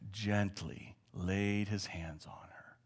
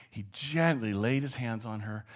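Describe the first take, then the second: First: Whispered softly and slowly; slow breathy hush as he lays hands on her; gentle whisper. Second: Said in the usual way. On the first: A narrator's reading.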